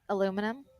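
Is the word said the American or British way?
American. The word is said in an American way.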